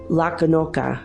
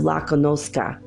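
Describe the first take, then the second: First: The s sound is dropped. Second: The s sound is clearly pronounced. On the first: "they'll say" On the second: "instead of"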